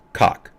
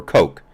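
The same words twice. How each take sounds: First: "Koch" said like "cock"; short open "ah" vowel in "Koch"; rhymes with "rock". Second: "Koch" said like "coke"; long "oh" vowel in "Koch"; rhymes with "coke". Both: Shown as a demonstration. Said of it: "Koch or Koch, I'm not sure".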